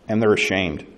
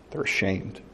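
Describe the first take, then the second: First: Said in the usual way. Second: "They're ashamed" repeated much softer, sinking away; soft echo. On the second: Shown as a demonstration. Preacher repeating it softly to the congregation, hushed. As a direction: let the repeat fall to a near hush.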